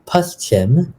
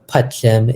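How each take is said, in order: First: The word is said with an s sound. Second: The word is said without an s sound. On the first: This is the standard Hindi form. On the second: This is the Trinidad Bhojpuri form.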